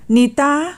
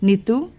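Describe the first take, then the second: First: Higher, rising call through a door; mild shout. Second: Tender call with a rising, coaxing end; loving call. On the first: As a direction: call out her name insistently. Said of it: "नवीन जसा ओरडला". (ओरडून मारलेली हाक) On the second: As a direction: call her name affectionately. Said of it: "अगदी प्रेमळ आवाजात म्हणाला". (प्रेमळ हाक) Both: A narrator's reading.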